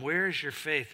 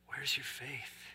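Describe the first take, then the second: First: It is said harshly, as a scolding. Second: It is said gently, as an invitation.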